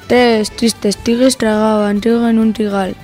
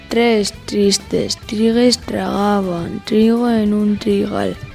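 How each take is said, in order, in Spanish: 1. Se dice a velocidad normal. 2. Se dice a velocidad lenta. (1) "Ahora a velocidad normal" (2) "Vamos con la lenta"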